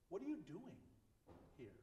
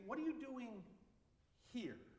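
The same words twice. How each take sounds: First: The strongest stress falls on "doing". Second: The strongest stress falls on "here". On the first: The question pointedly challenges what he is actually doing. "more pointedly" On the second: The question asks why he is in this place rather than where he was sent. "I sent you there, and now you're here"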